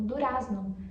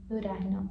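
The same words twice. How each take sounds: First: The z is said as an s sound. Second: The z is said like an r sound. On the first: This is how learners expect it from grammar. The speaker calls it wrong. "eles acham que é, o argentino vai pronunciar essa palavra como durazno" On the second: This is how people in Buenos Aires say it. The speaker calls it right. "ali em Buenos Aires eles pronunciam ... esse Z como durazno"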